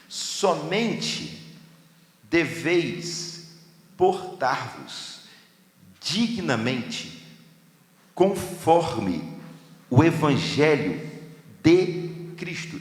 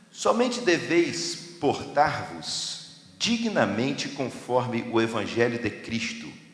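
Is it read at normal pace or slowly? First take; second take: slowly; normal pace. First: It is read slowly, word by word. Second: It is read at a normal pace.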